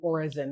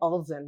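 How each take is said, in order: First: The name is said without any L sound. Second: The name is said with a clear L sound. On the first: This is how most people in the country say it. "Most Ghanaians say Orizen because they don't really say L" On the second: This is how the family says it. "We say Ulsen"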